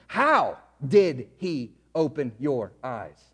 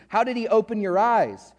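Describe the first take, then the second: First: Low, slow, drawn-out mock question; slow, low imitation of a scornful question; mocking Pharisee question. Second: Said in the usual way. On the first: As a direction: draw it out like a sneering interrogator. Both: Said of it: "look what they say".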